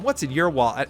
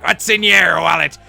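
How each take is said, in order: First: It is said in a mom's voice. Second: It is said in a pirate voice.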